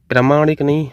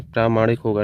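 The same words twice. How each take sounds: First: प्रामाणिक with short first vowel, pra-maanik, higher and louder; wrong form. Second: प्रामाणिक with long first vowel, praa-maanik; correct form. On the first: Teacher rejecting a misspelling, short pra in प्रामाणिक. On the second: Teacher correcting the spelling, long praa in प्रामाणिक. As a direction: lengthen the opening praa of प्रामाणिक. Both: Shown as a demonstration. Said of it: "प्रा जो रहेगा वो बड़ा रहेगा".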